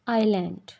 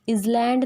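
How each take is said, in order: First: No sound comes between the vowel and l. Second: A z sound comes before the l. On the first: The speaker calls it right. "It's आइलैंड" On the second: The speaker calls it wrong. "इजलैंड नहीं होता"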